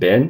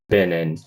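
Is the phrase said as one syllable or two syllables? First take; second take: one; two. First: The words collapse into a single syllable. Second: Two distinct syllables are heard, still connected. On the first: The speaker calls it wrong. "It's not collapsed into just one bin" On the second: The speaker calls it right. "you can hear both syllables"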